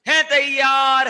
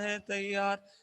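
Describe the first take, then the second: First: It is shouted loudly, like a slogan. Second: It is said flatly, with little energy. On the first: The speaker calls it right. "ऐसे energy के साथ ऐसे हाथ करके ऐसे नारा लगाते ना" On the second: The speaker calls it wrong. "ऐसे नहीं बोलना है"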